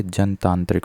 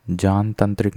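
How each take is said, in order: First: जनतांत्रिक opened as "jan"; "jan-taantrik" for जनतांत्रिक; correct short a. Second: जानतांत्रिक opened as "jaan"; "jaan-tantrik" for जानतांत्रिक; wrong long aa. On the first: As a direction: say जनतांत्रिक with short first vowel. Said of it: "होता है". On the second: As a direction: say जानतांत्रिक with long first vowel. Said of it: "नहीं होता". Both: Shown as a demonstration.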